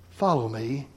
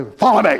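First: Soft, tender, earnest invitation; gentle but firm call. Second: Barked military command; drill sergeant. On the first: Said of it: "with a sense of both earnestness and tenderness". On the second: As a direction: bark it like a sergeant. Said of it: "like a drill sergeant". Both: Shown as a demonstration.

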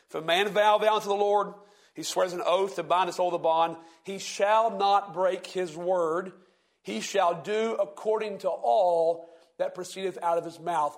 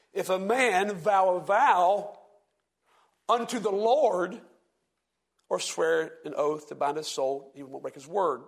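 First: Said in the usual way. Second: Slow, stress on "vow a vow" and "unto the Lord"; changed emphasis. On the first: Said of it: "I'm gonna change the emphasis". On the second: Shown as a demonstration. Teacher rereads Numbers to show the Pharisees' twisted stress. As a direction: draw out "If a man vow a vow" with pauses. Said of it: "Could you hear the change in emphasis there".

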